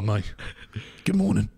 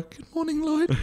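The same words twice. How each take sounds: First: Greeting well below the falsetto take; lower-pitched alternative. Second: Put-on, much higher greeting; high-pitched female voice. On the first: Host offers a friend the other option, lower-pitched. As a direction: drop out of the squeak into a lower greeting. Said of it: "Or a, or a". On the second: Host asks which voice a friend prefers, high-pitched. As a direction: lift the greeting way up, like a mock female voice. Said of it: "a female with a high-pitched voice". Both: Shown as a demonstration.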